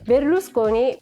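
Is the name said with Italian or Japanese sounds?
Italian. It has an L and Italian consonant clusters.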